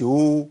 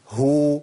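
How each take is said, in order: First: "هو" as a bare oo, its ه hidden; lost haa with damma. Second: "هو" as a long hoo with a distinct ه; clear haa with damma. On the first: Teacher shows what not to say, haa hidden. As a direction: let the vowel of "هو" swallow the h. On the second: Teacher models haa with damma, clearly sounded. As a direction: articulate the ه before the long oo of "هو". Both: Shown as a demonstration. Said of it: "ما أقولش هو".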